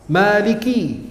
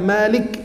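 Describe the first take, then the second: First: The k is followed by an i vowel. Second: The k has no vowel after it. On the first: The speaker calls it right. "karena kafnya kasrah" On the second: The speaker calls it wrong. "bukan malik yaumiddin"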